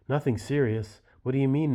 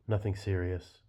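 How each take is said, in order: First: Higher and louder, disbelieving; incredulous angry outburst. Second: Said in the usual way. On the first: Acted. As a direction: throw her words back at her in disbelief. Husband reacts to son's violence.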